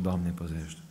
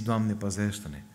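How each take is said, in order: First: Said in the usual way. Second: Slow, heartfelt plea to God; preacher models a sincere prayer, slowly; slow earnest prayer. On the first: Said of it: "nu e suficient să spun". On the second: Shown as a demonstration. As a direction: pray it slowly, meaning every word.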